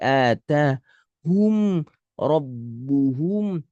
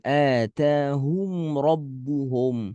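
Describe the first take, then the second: First: The vowel in hum is a clear, full u. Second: The vowel in hum is thick, near o. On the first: The speaker calls it right. "Harusnya hu seperti atahum rabbuhum" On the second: The speaker calls it wrong. "bukan atahum rabbuhum"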